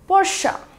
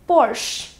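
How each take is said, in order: First: The word ends with a final vowel sound. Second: The word ends without a final vowel sound. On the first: The speaker calls it right. "इसकी correct pronunciation है Porsche, P O R S H A" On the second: The speaker calls it wrong. "we commonly pronounce it as Porsche, sweet simple but wrong"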